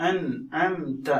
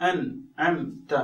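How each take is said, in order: The two takes are said the same way.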